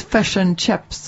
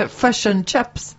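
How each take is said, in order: First: Slow New Zealand imitation, "Fish" like fesh; New Zealand accent. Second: Slow Northern Irish-sounding Kiwi, "Fish" like fush; muddled Northern Irish-Kiwi accent. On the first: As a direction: mimic a New Zealander, "chips" like cheps. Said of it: "He's from New Zealand". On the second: Retold or imitated. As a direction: mimic a Kiwi gone Northern Irish, "chips" like chups. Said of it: "why were you doing Northern Ireland accents then?".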